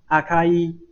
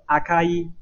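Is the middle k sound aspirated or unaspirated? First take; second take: unaspirated; unaspirated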